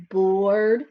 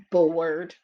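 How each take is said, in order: First: "bored" drawn out with a lift at the end; bored, rising. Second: Bored, sinking. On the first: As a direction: stretch "bored" and let it lift. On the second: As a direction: let "bored" sink down and fade. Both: Shown as a demonstration. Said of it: "he is bored".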